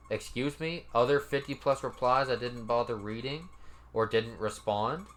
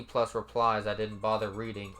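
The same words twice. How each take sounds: First: Disbelieving questions, each rising at the end; mock-disbelieving read-back with rising endings; incredulous echo. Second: Said in the usual way. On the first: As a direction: throw the words back as an offended question. Incredulous echo of the quoted reply.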